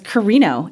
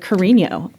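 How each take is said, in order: First: The name is said with an Americanized pronunciation. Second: The name is said with its original Filipino pronunciation. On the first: The name was changed to fit in. The speaker calls it wrong. "I used to say my last name was Carino" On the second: The name keeps its original form. The speaker calls it right. "the Carino is the correct version of my last name"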